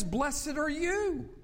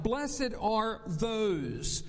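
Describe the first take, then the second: First: "Blessed are you." slow, higher, "you" hit hard; stress on you. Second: "Blessed are those." drawn out very slowly; stress on those. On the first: Pastor contrasting "you" with "those", slow and lifted. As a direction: drive home the word "you". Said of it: "then says". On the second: Pastor reading the verse to the congregation, very slow and stressed. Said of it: "In English grammar, we talk about third person". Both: Shown as a demonstration.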